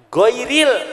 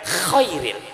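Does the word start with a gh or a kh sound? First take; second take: gh; kh. First: The word starts with a voiced gh sound. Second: The word starts with a voiceless kh sound. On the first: The speaker calls it right. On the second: The speaker calls it wrong.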